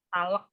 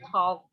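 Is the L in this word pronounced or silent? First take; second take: pronounced; silent. First: The L is pronounced with an extra vowel. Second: The L is silent in the word. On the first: The speaker calls it wrong. "jangan talak" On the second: The speaker calls it right. "L-nya jangan dibaca"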